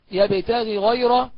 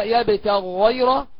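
First: يبتغي غيره with long ee between two separate gh sounds; clear unmerged ghayn. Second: يبتغ غيره joined on one held gh, no i between; slow doubled gh in يبتغ غيره; merged ghayn. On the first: Teacher shows the clear reading, يبتغي غيره unmerged. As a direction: slowly keep يبتغي apart from غيره. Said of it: "والإظهار معروف". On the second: Teacher demonstrates merging, held gh in يبتغ غيره. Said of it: "الإدغام هكذا". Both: Shown as a demonstration.

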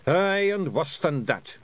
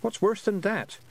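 First: Higher, slow Scottish pixie warning; Rob Anybody. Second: Put-on high-pitched questioning girl; Tiffany. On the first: Acted. Pixie leader warning of worse horrors, ominous Scots. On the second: Girl asking pixies about monsters, high and questioning. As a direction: ask it high, without the Scots accent.

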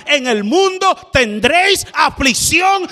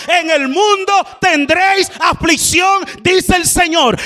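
First: Quoting "mundo" with a firm push; preaching quote. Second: Higher and shouted, "mundo" rising; preaching at full force. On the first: Preacher quoting the Lord, proclaiming firmly. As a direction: proclaim it to the church. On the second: Preacher repeating the Lord's words, shouting it out. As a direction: cry the verse out to the congregation. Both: Acted.

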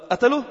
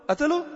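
First: Said in the usual way. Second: قتله؟ pitched high in disbelief, rising; incredulous. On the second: Shown as a demonstration. Preacher to congregation, rising disbelief on قتله؟. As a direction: ask قتله؟ as if you can't believe it.

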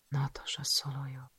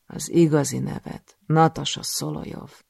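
First: Whispered, barely audible; stunned whisper. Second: Said in the usual way. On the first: Acted. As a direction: breathe the name to yourself in shock. She repeats her own name. (döbbent suttogás)

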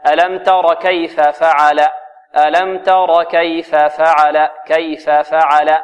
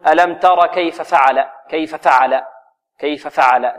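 First: Slow, distinct "كيف فعل" with both fa syllables full; first faa made clear. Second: "كيف فعل" with the first fatha rushed short; snatched vowel. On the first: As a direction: give the last vowel of "كيف" its full length before "فعل". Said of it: "لا بد من توضيح الفاء الأولى". (توضيح الفاءين في "كيف فعل" بتأنٍ) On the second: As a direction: clip the fa at the end of "كيف" into "فعل". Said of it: "ولا نخطف حركتها". (خطف حركة الفاء الأولى في "كيف فعل") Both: Shown as a demonstration.

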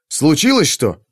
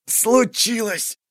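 First: Said in the usual way. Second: A high, slow, strained wheeze squeezed out in pain; hoarse wheeze. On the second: A narrator's reading. Captain in pain wheezes a reply to Tern, hoarse and strained. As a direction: force the word out through a seized chest. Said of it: "просипел Кайфат".

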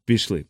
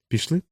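First: "Пішли" as a short falling statement; agreeing answer. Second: "Пішли" lifted high into a rising question. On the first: Crew member answers the doctor, agreeing with falling tune. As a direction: settle "Пішли" downward, no question in it. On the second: Doctor asks the crew whether to go, questioning rise. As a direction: ask "Пішли" with the tune climbing at the end. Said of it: "запитав лікар". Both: A narrator's reading.

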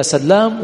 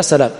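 First: سلام with a long doubled L. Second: سلام with one short L; single light L. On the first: Teacher repeating the contrast, L doubled in سلام. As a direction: stress the held double L in سلام. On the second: Teacher repeating the contrast, single L in سلام. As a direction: say سلام lightly, L not doubled. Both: Shown as a demonstration. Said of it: "أحدهما بالتخفيف والثاني بالتشديد".

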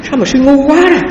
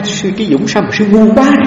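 First: Much higher, sharp mock scolding; startling rebuke. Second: Lightly voiced rebuke, a little higher; mild retelling of the master's scolding; quoting the master. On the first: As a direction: re-enact the master's jolting rebuke. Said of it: "giật mình". (thầy thiền sư quát sư, giọng cao vút nhại lại) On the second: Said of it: "Ông nói". (nhại nhẹ lời thầy trách)

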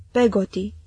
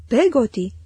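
First: Said in the usual way. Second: Mildly affronted, incredulous repeat; somewhat indignant. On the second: A narrator's reading. Betsy repeats the servant's name, somewhat indignant. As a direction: echo the name with a touch of indignation. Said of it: "oarecum indignată".

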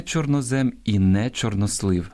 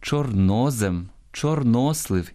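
First: Чорнозем, чорнослив with stress moved off -НО-; wrong stress. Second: Чорнозем, чорнослив stressed on -НО-; correct stress. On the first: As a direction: keep НО unstressed in чорнозем and чорнослив. (наголос не на другому складі: чорнозем, чорнослив) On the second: (наголос на другому складі: чорнозем, чорнослив) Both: Shown as a demonstration. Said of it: "ні в якому разі не".

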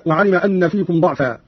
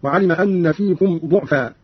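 First: Said in the usual way. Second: "ضعفا" slowly as du'fa; damma on dad. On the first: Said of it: "بضم الضاد". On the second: Shown as a demonstration. Teacher showing Qalun's reading, "ضعفا" said du'fa. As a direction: round the first vowel of "ضعفا" to u. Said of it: "قرأ قالون بضم الضاد هكذا".

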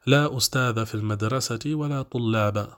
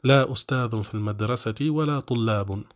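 First: أستاذ as "ustadha", طلاب as "tullaba"; accusative endings. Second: أستاذ as "ustadhun", طلاب as "tullabun"; nominative endings. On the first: Teacher giving a parallel example, accusative -a on أستاذ and طلاب. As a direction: sound a short final -a on أستاذ and طلاب. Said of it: "أعملناها فنصبنا". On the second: Teacher showing the other permitted reading, nominative -un on أستاذ and طلاب. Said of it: "فرفعت". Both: Shown as a demonstration.

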